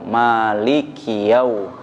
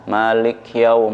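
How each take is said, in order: First: A short i vowel follows the k sound. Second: The k sound has no vowel after it. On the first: The speaker calls it right. "harus betul-betul sempurna baris kasrahnya" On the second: The speaker calls it wrong. "kayak seperti kas, seperti sukun kafnya"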